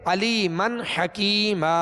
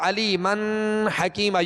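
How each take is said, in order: First: The n is released clearly without nasal hum. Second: The n is held with a nasal hum. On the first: The speaker calls it right. "तो यहाँ भी गुन्ना नहीं करेंगे ... यूँ पढ़ेंगे" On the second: The speaker calls it wrong. "यूँ नहीं पढ़ेंगे"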